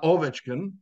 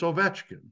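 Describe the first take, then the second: First: The stress is not on the middle syllable. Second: The stress is on the middle syllable. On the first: The speaker calls it wrong. "It's not" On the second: The speaker calls it right.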